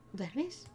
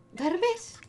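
First: Soft, higher-pitched question; hushed rising query; tentative. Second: High, rising question at full voice; high-pitched prodding query; insistent. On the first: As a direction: gently check if they are asleep. Checking whether someone is asleep. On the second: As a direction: pipe up to rouse the sleeper. Asking the sleeper more insistently. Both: Acted.

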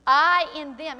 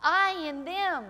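First: Loud, ringing declaration of I in them; proclaimed loudly. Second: Slow, drawn-out I in them, each word weighed; slow repetition. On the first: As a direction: call out I in them with force. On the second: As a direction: let I in them sink in slowly. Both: Shown as a demonstration. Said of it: "He said it over and over again".

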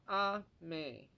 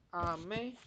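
First: "阿美" starting high on 阿, then falling on 美; high first sound. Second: "阿美" with 美 pulled upward; raised second sound. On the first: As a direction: stress 阿 high and let 美 drop. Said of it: "念高". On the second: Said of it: "第二音是拉上去的". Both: Shown as a demonstration.

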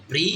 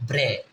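First: "ব্রি" with a long ee vowel; BRE read as "bri". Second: "ব্রে" with an open e vowel; BRE read as "bre". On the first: Teacher shows first reading of BRE, ee sound in "ব্রি". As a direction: say "ব্রি", ending in ee as in "see". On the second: Teacher shows second reading of BRE, e sound in "ব্রে". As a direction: say "ব্রে", ending in e as in "bread". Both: Shown as a demonstration. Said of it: "আমরা এটা দুই রকমই লিখবো".

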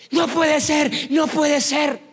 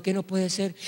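First: High-pitched acted exclamation of amazement; astonished disbelief. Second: Soft, subdued acted query; puzzled question. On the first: Healed man seeing his hand, high astonished exclamation. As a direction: cry out as if you cannot believe it. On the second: Praying brother to the shouting man, soft puzzled question. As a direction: ask it quietly, not understanding.

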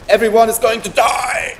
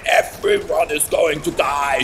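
First: Loud high mock-evil proclamation; hammed-up villain shout. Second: Lower, still shouted repeat; mock villain shout. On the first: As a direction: announce doom like a cartoon villain. Villainous spoiler of the story. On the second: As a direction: growl the doom again.

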